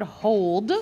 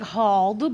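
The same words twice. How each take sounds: First: "hold" with a long oh vowel; correct "hold". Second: "hauled" with an open aw-ah vowel; misread "hauled". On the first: Teacher giving children the tricky word, "hold" with long oh. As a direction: say "hold" to rhyme with old. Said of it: "but it's the word". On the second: Teacher showing children a tempting misreading, "hauled" with open vowel. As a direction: say "hauled" as if sounding out a short o. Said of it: "It looks like". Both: Shown as a demonstration.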